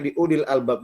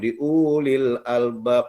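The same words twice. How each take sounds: First: The first vowel is kept short. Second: The first vowel is held long. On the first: The speaker calls it right. "padahal harusnya" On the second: The speaker calls it wrong. "Ustaz baca panjang itu"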